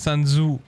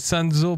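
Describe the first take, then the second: First: The name ends with an "oo" vowel. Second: The name ends with an "oh" vowel. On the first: The speaker calls it wrong. "pas Sanzu" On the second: The speaker calls it right. "C'est Sanzo"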